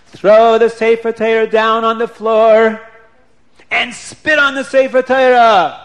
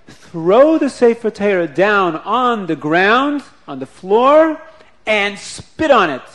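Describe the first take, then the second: First: Slow, sung-out chant, louder and higher; chanted command. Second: Each word laid down slowly and firmly, louder; a grave, deliberate order, weighing "Throw" and "spit"; slow solemn command. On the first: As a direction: intone it like a cantor's chant. Rabbi repeats the command. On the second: Rabbi gives shocking command. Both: Acted.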